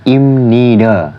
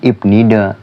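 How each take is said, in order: First: An m sound comes before nida. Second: A b sound comes before nida. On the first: The speaker calls it right. "tapi imnida" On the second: The speaker calls it wrong. "bukan ibnida"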